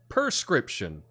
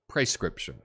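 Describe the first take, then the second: First: The first syllable does not sound like pray. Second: The first syllable sounds like pray. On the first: The speaker calls it wrong. "I have been saying this wrong my whole life" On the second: The speaker calls it right. "with the P R E pronounced like pray"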